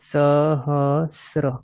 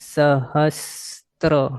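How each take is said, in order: First: It is said with no t before r. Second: It is said with a t before r. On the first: The speaker calls it right. "આ right છે" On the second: The speaker calls it wrong. "આ wrong છે"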